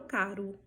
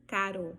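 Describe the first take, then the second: First: CARO ending in an U sound, "CA-ru"; Portuguese caro. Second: CARO ending on a full O, not U; Spanish caro. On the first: Teacher contrasting languages, Portuguese "caru" for caro. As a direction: reduce the final O of caro to U. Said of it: "No português eu falo". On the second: Teacher contrasting languages, Spanish caro with full final O. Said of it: "no espanhol eu falo". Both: Shown as a demonstration.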